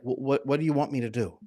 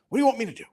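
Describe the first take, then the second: First: It sounds flustered and stammering. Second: It sounds cold and dismissive.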